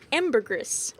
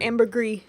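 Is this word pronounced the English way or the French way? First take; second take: English; French. First: The word is pronounced in an English manner. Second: The word is pronounced in a French manner. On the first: "depending on how you like to pronounce it" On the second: "enough French in it"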